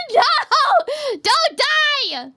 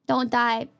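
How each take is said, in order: First: Much higher, louder cry; alarmed shout. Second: Said in the usual way. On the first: Real, not acted. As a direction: yell it to stop them. Pleading with chat member.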